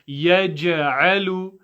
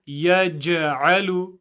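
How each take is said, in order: No difference in how they are said.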